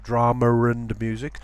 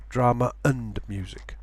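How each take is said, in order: First: DRAMA AND MUSIC run together with an R before AND; linking R. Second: DRAMA AND MUSIC with a glottal stop before AND; no linking sound. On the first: Teacher shows what to avoid, intrusive R in DRAMA AND. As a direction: link DRAMA to AND as drama-r-and. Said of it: "Instead of drama and music". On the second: Teacher shows the alternative, DRAMA and AND unlinked. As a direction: separate DRAMA from AND with a catch. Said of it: "avoid any kind of linking sound". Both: Shown as a demonstration.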